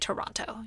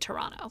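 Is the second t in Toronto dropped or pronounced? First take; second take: pronounced; dropped. First: The second t sound is clearly pronounced. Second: The second t sound is dropped. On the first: The speaker is not from the city. The speaker calls it wrong. "you're not supposed to say Toronto" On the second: The speaker is from the city. The speaker calls it right. "You're supposed to say Toronto"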